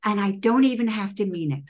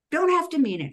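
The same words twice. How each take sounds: First: Said in the usual way. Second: "Don't" pitched high and leaned on; insisting with a high "Don't"; stress on Don't. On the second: Real, not acted. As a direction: hit "Don't" hard, high in the voice. Repeats phrase to insist.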